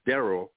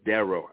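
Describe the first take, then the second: First: The name ends with an 'ee' or 'il' sound. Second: The name ends with an 'oh' sound. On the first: The speaker calls it wrong. "not Darryl" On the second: The speaker calls it right. "but Darryl. I'm saying it right"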